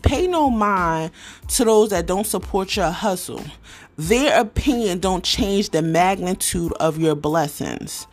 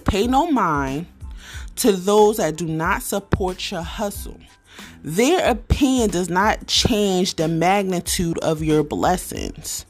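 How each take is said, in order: First: The quote is read at a fast pace. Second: The quote is read at a slow pace.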